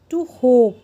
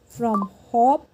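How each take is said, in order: First: "hope" with long oh, loud; long vowel. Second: "hop" with a short o; short vowel. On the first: Teacher drills silent E word, long loud vowel in "hope". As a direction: stretch and push the oh in "hope". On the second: Teacher drills word before silent E, short vowel in "hop". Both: Shown as a demonstration. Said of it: "वो longer और louder हो जाता है".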